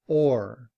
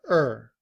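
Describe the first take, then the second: First: The word is said fully with a clear vowel. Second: The word is a weak schwa-like er. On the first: "rather than or" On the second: "in reduced form ... to sound like er"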